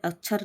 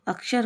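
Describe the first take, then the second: First: अक्षर said as ach-chhar; अक्षर with a ch sound in the middle; wrong pronunciation. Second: अक्षर with a clear k-sh cluster; correct pronunciation. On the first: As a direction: turn the ksh of अक्षर into chh. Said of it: "नहीं होता". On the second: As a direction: say अक्षर as ak-shar. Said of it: "होता है". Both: Shown as a demonstration.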